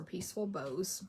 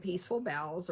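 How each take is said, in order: First: "Bows" said with a long O, as in bow tie; Bows rhyming with toes. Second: "Boughs" said with an OW vowel, as in cow; Boughs rhyming with cows. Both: Shown as a demonstration. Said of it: "or Peaceful Bows".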